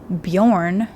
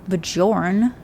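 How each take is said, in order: First: The J is sounded like an English Y. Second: The J is sounded like an English J. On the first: The speaker calls it right. "the J's in like that language are si- like are pronounced Y's because it's Bjorn" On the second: The speaker calls it wrong. "not Bjorn"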